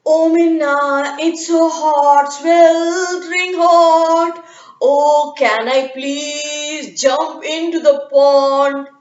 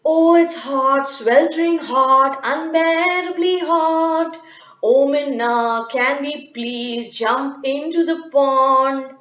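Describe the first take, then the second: First: Very slow, louder, sing-song pleading; otter voice. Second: Slow, whiny monkeys begging in the heat. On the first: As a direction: stretch every word like a lazy otter. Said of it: "he asked". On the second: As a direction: drag out the heat like a tired monkey. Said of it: "they said". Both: Acted.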